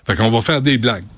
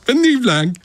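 First: Said in the usual way. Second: High, sneering mock plea; mock request. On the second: Host mimicking the campaign asking comics for jokes, sarcastic high voice. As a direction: parody a boss begging for jokes, pitch up. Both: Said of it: "puis tu dis".

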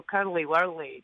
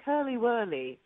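First: Slow, lower Scottish "curly whirly" with sounded r's; broad Scottish demo, low and slow; Scottish accent. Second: Lightly put-on English accent; imitated English accent. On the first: Shown as a demonstration. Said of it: "but we always go". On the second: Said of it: "English people are like".

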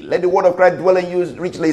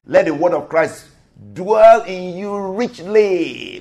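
First: Brisk, run-through recitation; quick scripture repeat. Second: Stretched-out, deliberate recitation. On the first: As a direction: rattle the verse off in one fast run. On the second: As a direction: draw out "dwell in you richly" word by word. Scripture quoted slowly, then repeated. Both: Acted.

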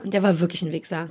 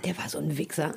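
First: Said in the usual way. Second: Hushed whispered insult; whispering. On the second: Real, not acted. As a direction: drop to a whisper.

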